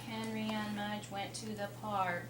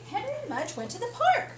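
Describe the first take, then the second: First: It is read flatly, without expression. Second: It is read with lively excitement. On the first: The speaker calls it wrong. "do you think that's going to hold my attention?" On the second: The speaker calls it right. "It's exciting"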